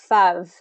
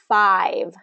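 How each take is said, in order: First: The vowel is a short 'uh' sound. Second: The vowel is a long gliding 'eye' sound. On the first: The speaker calls it wrong. "if you don't get enough movement with that long, long I vowel, it'll sound like fuv" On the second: The speaker calls it right. "this has that long I, so we're going to say the letter I for the vowel"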